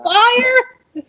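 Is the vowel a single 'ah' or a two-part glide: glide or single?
glide. The vowel glides from 'ah' to 'ee'. This is the standard form. The speaker calls it right. "You mean the yeah. fire?"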